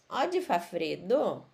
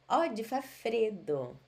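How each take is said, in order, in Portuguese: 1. É dito com entonação de pergunta. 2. É dito com entonação de afirmação.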